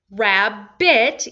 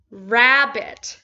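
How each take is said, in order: First: RABBIT as two slow beats, rab... bit; split syllables. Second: Said in the usual way. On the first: Shown as a demonstration. Teacher showing where the word divides, split syllables. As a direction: break "Rabbit" between the two b's, each half stressed. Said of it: "divide it right between the two dividing consonants". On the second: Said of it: "Rabbit equals".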